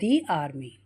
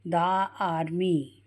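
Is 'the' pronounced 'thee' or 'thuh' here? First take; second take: thee; thuh. First: The word 'the' is said with a long 'ee' vowel. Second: The word 'the' is said with a short 'uh' vowel. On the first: The speaker calls it right. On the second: The speaker calls it wrong. "अब द army नहीं"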